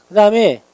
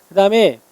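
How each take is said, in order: The two takes are said the same way.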